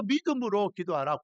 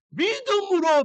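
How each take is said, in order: First: Said in the usual way. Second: 믿음으로 cried out high and loud; punched word. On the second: Real, not acted. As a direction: hit 믿음으로 hard and high. Preacher stresses key word. (믿음으로를 높고 크게 외치듯)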